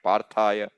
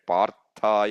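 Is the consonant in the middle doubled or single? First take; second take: single; doubled. First: The middle consonant is short and single. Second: The middle consonant is held and doubled. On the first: The speaker calls it wrong. "which is not how it's normally chanted" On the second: The speaker calls it right. "Doubling is happening"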